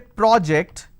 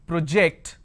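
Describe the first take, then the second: First: It has the noun form's first vowel sound. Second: It has the verb form's first vowel sound. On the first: It names a thing. "When I say project, it's a noun" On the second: It names an action. "When I say it's project, I'm talking about a verb"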